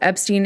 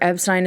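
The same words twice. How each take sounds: First: It uses the family's original pronunciation. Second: It uses the American press pronunciation. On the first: This is how the family and inner circle said it. "Epstein is actually the way that it was pronounced around the family and inner circle" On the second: This is the more accepted US pronunciation. "Epstein is the way that they did it in the press"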